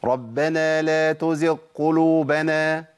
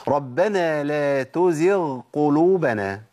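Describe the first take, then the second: First: Slow chant, تزغ ending on a qaf; dropped ghayn demo. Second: Slow chant, تزغ keeping its own ghayn; correct ghayn recitation. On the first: Teacher shows where the mistake is, ghayn merged into qaf. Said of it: "الخطأ فين بقى؟". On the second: Teacher recites for students to listen, clear ghayn in تزغ. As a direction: sound a full ghayn in تزغ before the qaf. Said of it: "اسمع طيب". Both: Shown as a demonstration.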